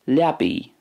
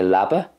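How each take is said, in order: First: It ends in an 'ee'-like vowel. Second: It ends in a short 'a' vowel. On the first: "But in Ulster then, Liabi" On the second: "not a whole lot of difference between the Munster and the Connacht way. I would say Labba"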